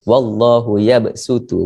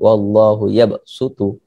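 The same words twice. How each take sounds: First: The s is a light, plain s sound. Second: The s is a heavy, emphatic s sound. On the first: The speaker calls it right. "lebih afdal kita baca sin" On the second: The speaker calls it wrong.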